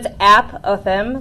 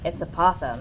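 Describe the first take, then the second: First: The first syllable sounds like 'app'. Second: The first syllable does not sound like 'app'. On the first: The speaker calls it right. "like an app on your phone" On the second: The speaker calls it wrong. "Mister Roniak was like"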